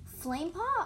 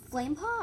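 First: High, loud questioning call; raised, rising shout; louder repeat. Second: Raised, loud questioning name; rising, surprised query; puzzled question. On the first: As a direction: repeat the name higher and louder. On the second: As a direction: ask the name, caught off guard. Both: A narrator's reading. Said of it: "I repeated louder".

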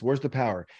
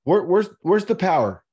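First: Said in the usual way. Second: Loud rhetorical demand; emphatic loud question. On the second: Real, not acted. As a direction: push "where's the power" out louder, demanding an answer. Rhetorical challenge to the listener.

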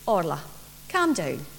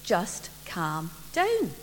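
First: Calming. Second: Slow, soft and soothing; a mother slowly soothing her excited daughter; calming. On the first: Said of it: "Mum said just calm down". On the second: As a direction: settle the child down gently. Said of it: "Mum said". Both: Acted.

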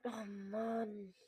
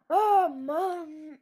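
First: Quiet defeated sigh. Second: Laughing groan. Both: Real, not acted. Frustrated after losing.

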